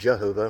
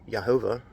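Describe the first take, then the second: First: The name begins with a J sound. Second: The name begins with a Y sound. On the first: The speaker calls it wrong. "it's clearly not Jehovah with a J" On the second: The speaker calls it right. "I argue it's pronounced Yehovah"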